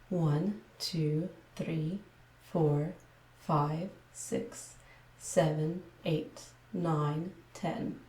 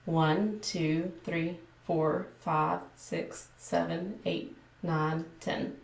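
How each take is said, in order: First: Careful, measured ASMR counting. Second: Everyday Texan-accented counting. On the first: ASMR creator showing viewers her video voice, careful ASMR delivery. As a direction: count out each number separately, with careful vowels. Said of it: "this would be my A S M R voice". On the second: Woman attempting her normal speaking voice for viewers, mild Texan accent. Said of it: "demonstrate my normal speaking voice". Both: Shown as a demonstration.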